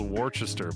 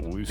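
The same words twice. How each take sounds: First: Every written syllable of the word is pronounced. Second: The word is shortened, with syllables dropped. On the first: This is how the written name looks. "It's spelled Worcester" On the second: This is how people actually say the name. "but people call it Worcester"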